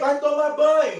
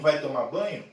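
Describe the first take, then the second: First: It is said in a loud, shouting voice. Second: It is said in a soft, everyday voice. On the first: "Não estou falando para você gritar" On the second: "É a voz que serve o café da manhã"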